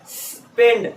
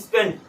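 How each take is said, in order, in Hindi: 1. शुरुआती s सांस की तरह खिंचा हुआ है। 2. शुरुआती s छोटा और तेज़ है।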